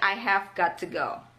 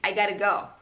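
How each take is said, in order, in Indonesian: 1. Setiap kata diucapkan penuh dan terpisah. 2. Kata-katanya disambung dengan cepat.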